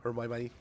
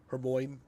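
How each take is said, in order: First: "Hermione" said as her-MY-mo-nee; other wrong Hermione. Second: "Hermione" said as her-MOYN, two syllables; the old wrong way, "Hermione" as her-moyn. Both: Shown as a demonstration. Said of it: "how I said Hermione for years".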